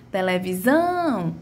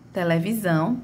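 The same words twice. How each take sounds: First: Televisão with a slow, drawn-out SÃO; stress on SÃO. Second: Said in the usual way. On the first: Shown as a demonstration. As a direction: hold the final "são" of Televisão. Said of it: "foi a sílaba que mais se arrastou". (Televisão com o SÃO arrastado) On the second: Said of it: "minha última sílaba foi a sílaba que mais se arrastou".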